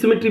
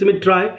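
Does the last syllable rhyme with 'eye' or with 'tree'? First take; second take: tree; eye. First: The last syllable sounds like 'tree'. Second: The last syllable rhymes with 'eye'. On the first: This is the everyday pronunciation. "the pronunciation of the word I is I, and symmetry is symmetry" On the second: It is bent to keep the poem's rhyme and meter. "we never pronounce symmetry symmetry, but for the sake of the meter I'm pronouncing it"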